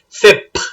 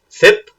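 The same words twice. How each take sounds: First: The final p has a puff of air. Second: The final p has no puff of air. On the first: "with aspiration" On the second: "with no aspiration"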